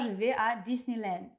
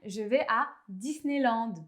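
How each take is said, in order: First: Disneyland is said with an English pronunciation. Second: Disneyland is said with a French pronunciation. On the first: A French speaker would not say it this way. The speaker calls it wrong. "et pas" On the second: This is how a French speaker normally says it. The speaker calls it right. "je vais dire"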